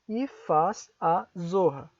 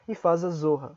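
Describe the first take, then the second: First: The phrase is said slowly, words kept apart. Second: The phrase is said quickly, words run together. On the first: "se eu pronuncio devagar" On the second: "se eu pronuncio rápido"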